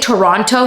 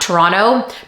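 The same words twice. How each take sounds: First: The second T is clearly pronounced. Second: The second T is swallowed and silent. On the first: It sounds general American. "I like to say Toronto" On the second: It sounds Canadian. "Toronto is the Canadian way"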